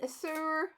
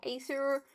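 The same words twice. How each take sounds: First: "azure" begun with a short, unstressed "uh"; unsure pronunciation. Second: "azure" begun with a long "ay"; alternative pronunciation. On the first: Crafter unsure of the gem colour's name, "azure" with a weak first vowel. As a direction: say "azure" as "uh-zhure", trying it out. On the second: Crafter offering another guess at the colour's name, "azure" starting "ay". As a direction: say "azure" as "ay-zhure", as a questioning alternative. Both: Shown as a demonstration. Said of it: "pronunciation of that one".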